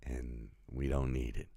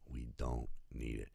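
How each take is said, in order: First: Said in the usual way. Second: Quiet echo. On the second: Real, not acted. Repeats the message softer.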